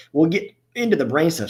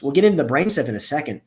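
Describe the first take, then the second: First: Talking through the hiccups; words broken by a hiccup. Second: Said in the usual way. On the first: Real, not acted. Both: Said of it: "Sorry, I got the hiccups".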